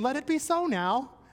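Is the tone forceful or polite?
polite. It is said in a gentle, polite tone. It is a courteous request. The speaker calls it wrong. "sometimes we read it a little politely"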